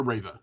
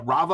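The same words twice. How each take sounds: First: Rava said RAY-vuh; Rava, starting like the word "rave"; first vowel as AY. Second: Rava said RAH-vuh; Rava, rhyming with lava; first vowel as AH. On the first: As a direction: say Rava with a long "ay" in the first syllable. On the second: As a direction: say Rava with an open "ah" in the first syllable. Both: Shown as a demonstration. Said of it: "is it, Rava or Rava".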